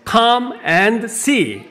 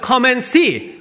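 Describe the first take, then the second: First: The phrase is said slowly and fully. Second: The phrase is said quickly and shortly.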